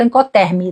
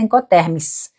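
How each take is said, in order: First: The word ends without a final s sound. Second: The word ends with a final s sound. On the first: The speaker calls it wrong. "de vez em quando eu falo Incoterm" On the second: The speaker calls it right. "o certo é com S no final"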